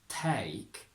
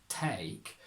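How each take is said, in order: The two takes are said the same way.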